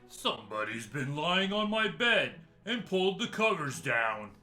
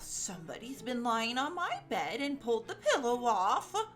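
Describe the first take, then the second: First: It is growled in a great big voice. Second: It is said in a middle-sized voice.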